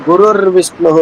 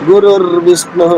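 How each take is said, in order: Both takes have the same delivery.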